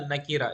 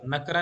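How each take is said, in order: First: नकीरा with a clear i after the k; correct pronunciation. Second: नकरा said without the i vowel after k; clipped नकरा, two syllables run together; wrong pronunciation. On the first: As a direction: say ना-की-रा, the k carrying an i vowel. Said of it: "ये काफ के नीचे जेर पढ़ना है". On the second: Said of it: "नकरा नहीं बोलना". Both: Shown as a demonstration.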